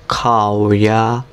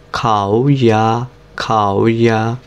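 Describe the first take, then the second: First: খাওয়া drawn out slowly with a dipping start; slow third tone drill. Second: খাওয়া repeated slowly, dip then fall; slow tone drill. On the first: Teacher slowly modeling third tone on খাওয়া. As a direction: drag খাওয়া slowly, dipping the first syllable. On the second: Teacher repeating খাওয়া slowly for students. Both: Shown as a demonstration. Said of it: "প্রথমটা কি third tone".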